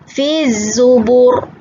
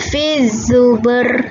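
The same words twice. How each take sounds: First: The r sound is heavy and thick. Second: The r sound is light and thin. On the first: The speaker calls it right. "Ra dibaca secara tafkhim, tebal" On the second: The speaker calls it wrong.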